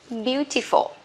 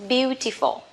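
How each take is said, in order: The two takes are said the same way.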